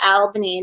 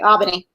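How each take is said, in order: First: The L sound is clearly pronounced. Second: The L sound is dropped. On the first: This is how people from elsewhere say it. "they don't say Albany" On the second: This is how local people say it. "we do not say our L's"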